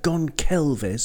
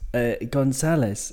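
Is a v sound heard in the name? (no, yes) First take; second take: yes; no. First: The name is said with a v sound. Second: The name is said without a v sound. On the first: The speaker calls it wrong. "it looks like Gonçalves" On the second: The speaker calls it right. "You don't pronounce the V"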